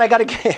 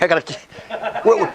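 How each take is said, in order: First: Said in the usual way. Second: Real laugh through the words, slower and much softer. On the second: Real, not acted. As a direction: lose it in a laugh while trying to speak. Breaks into laughter mid-sentence.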